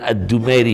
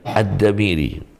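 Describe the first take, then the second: First: The vowel after D is u, then ai. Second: The vowel after D is a, then i. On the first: The speaker calls it wrong. "jangan Ad-Dumairi ya" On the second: The speaker calls it right.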